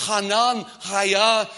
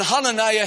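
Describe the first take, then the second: First: Hananiah broken into "Hanan, Haya"; split up Hebrew. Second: Said in the usual way. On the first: Shown as a demonstration. Preacher splitting the name in Hebrew, "Hanan, Haya" as two parts. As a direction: say "Hanan", pause, then "Haya", each stretched separately. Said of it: "when we split it up in Hebrew". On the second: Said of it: "his name, when we split it up".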